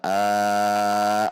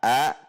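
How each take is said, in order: First: The vowel is long. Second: The vowel is short. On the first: The speaker calls it wrong. "itu dipanjangkan" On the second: The speaker calls it right. "A-nya tidak boleh lama"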